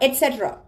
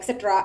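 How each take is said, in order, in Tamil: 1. இந்த வார்த்தை 'et' ஒலியில் தொடங்குகிறது. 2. இந்த வார்த்தை 'ek' ஒலியில் தொடங்குகிறது. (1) "இதை எப்படி ப்ரொனவுன்ஸ் பண்ணணும் அப்படின்னு பார்த்தீங்கன்னா எட்செட்ரா" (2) "எக்ஸெட்ரா, எக்ஸ்ட்ரா அப்படின்லாம் சொல்லுவோம்"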